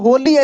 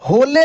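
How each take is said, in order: First: The final e is sounded as ee. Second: The final e is sounded as ay. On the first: "या होली ऐसे नहीं पढ़ रहे हैं" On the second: "होले नहीं पढ़ रहे हैं"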